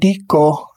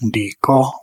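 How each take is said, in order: First: The tone goes from high to mid. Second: The tone goes from low to mid. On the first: The grinding is ongoing or habitual. "in the imperfective aspect, que dico, high mid" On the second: The grinding is completed. "in a perfective aspect, dico, low-mid"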